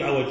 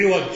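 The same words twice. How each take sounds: First: عوج said 'awaj, a after ع; fatha on ع. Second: عوج said 'iwaj, i after ع; kasra on ع. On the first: Teacher sums up the form to avoid, 'awaj for عوج. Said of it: "ولا تقول عوج". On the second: Teacher sums up the correct form, 'iwaj for عوج. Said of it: "تقول عوج ولا تقول عوج". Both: Shown as a demonstration.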